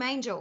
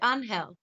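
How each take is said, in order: First: The name is said with an English pronunciation. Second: The name is said with a Spanish pronunciation. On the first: It follows how the name is spelt. "I call him Angel because that's the way his name is spelt" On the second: It is how the owner of the name says it. "because it's a Spanish name, he pronounces it Angel"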